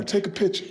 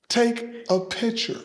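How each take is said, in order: First: Said in the usual way. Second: "Take a picture" drawn out slow, higher, rising at the end; slow emphatic repeat. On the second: Real, not acted. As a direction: stretch out "Take a picture" like a proud invitation.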